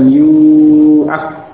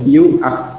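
First: The vowel after the y is long. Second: The vowel after the y is short. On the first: The speaker calls it wrong. "bukan yu'ak, bukan seperti itu" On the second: The speaker calls it right. "dibaca pendek dhamma sebelumnya"

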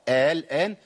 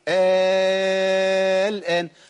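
First: The second hamza is softened between hamza and alif. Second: The hamza becomes a long alif held six counts. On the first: "تسهيل قلنا عليه خلاص، يبقى أقول إيه؟" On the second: "الان بعد الالف الماديه اللي هي مبدله من الهمزه ساكن"

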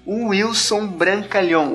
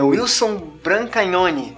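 First: The surname ends with a nasal 'ão' sound. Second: The surname ends with an 'ione' sound. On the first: The speaker calls it wrong. "Não é brincalhão, não, cara, mas ficou engraçado" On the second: The speaker calls it right. "É Wilson Brancaglione. Wilson Brancaglione, esse é o teu nome"

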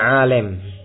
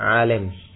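The two takes are said the same way.

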